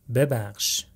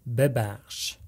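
No difference in how they are said.

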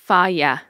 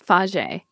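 First: The word ends with a 'yah' sound. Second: The word ends with a 'j' sound. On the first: The speaker calls it right. "but it's Faya" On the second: The speaker calls it wrong. "I used to think it was Faje"

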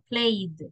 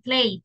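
First: The ending is a clean d sound. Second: The ending is not a clean d sound. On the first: The speaker calls it right. "en vez de decirme played" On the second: The speaker calls it wrong. "me dicen played"

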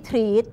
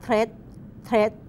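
First: The vowel is long, like 'treet'. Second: The vowel is short, like 'thret'. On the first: The speaker calls it wrong. "ไม่ใช่ ... ไม่ได้ออกเสียงว่าทรีด" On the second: The speaker calls it right. "ออกเสียงว่าเทรด"

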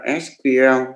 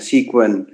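First: The term is said in its full form. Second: The term is said in a quick, shortened form. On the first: "tiếng Anh thì ta đọc là SQL" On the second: "đôi khi ta đọc nhanh là SQL"

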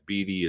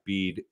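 First: The name ends with a sounded final vowel. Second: The name ends with a consonant sound. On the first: The speaker calls it right. "there is an E at the end of it, so that's why it's Beede" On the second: The speaker calls it wrong. "it's not Beede"

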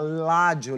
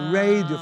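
First: The word begins with an L sound. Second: The word begins with an R sound. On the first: "fala ládio" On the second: "Ao invés de radio"

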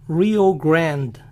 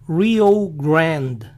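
Both takes have the same delivery.

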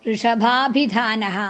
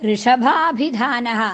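No difference in how they are said.

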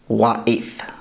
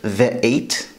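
First: It begins with a W and ends in TH. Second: It begins with a V and ends in T. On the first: "here in Babylonian, in Iraq, it is pronounced wa'eth" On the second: "in modern Hebrew pronounced ve'et"

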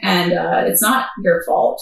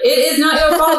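First: It is said in a plain, matter-of-fact way. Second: It is said in a sassy, emphatic way.

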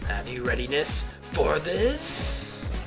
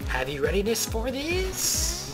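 First: The voice is pitched fairly low. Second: The voice is pitched high. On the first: The speaker calls it wrong. "No, that wasn't his voice" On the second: The speaker calls it right. "He has a high-pitched voice"

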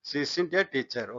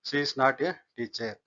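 First: "Is not" is contracted into one word, "isn't". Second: "Is not" is said as two full words.

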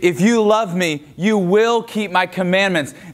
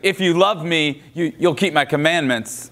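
First: It sounds warm and loving. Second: It sounds passive-aggressive and pointed.

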